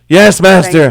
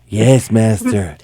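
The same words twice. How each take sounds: First: It is said in a normal speaking voice. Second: It is said in a put-on servant voice.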